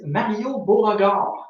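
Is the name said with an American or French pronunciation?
French. The name is said with a French pronunciation. "pronouncing it in French"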